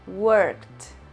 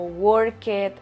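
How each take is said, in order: First: The ending is a short plain t sound. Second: The ending is not a plain t sound. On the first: The speaker calls it right. "vamos a pronunciarlo con T al final" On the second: The speaker calls it wrong. "nunca worked o worked o algo parecido"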